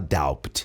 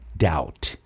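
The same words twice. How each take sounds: First: A b sound is heard before the t. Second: No b sound is heard before the t. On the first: The speaker calls it wrong. "Você nunca vai falar doubt" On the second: The speaker calls it right. "Esse B não é pronunciado"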